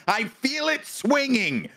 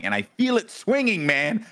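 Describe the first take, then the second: First: High, slow, drawn-out alarm; heightened acted panic. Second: Higher, alarmed retelling; acted panic. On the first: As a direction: stretch SWINGING out in high mock panic. Repeats, panic escalating. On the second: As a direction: voice jumps up in mock alarm. Acting out panic in elevator.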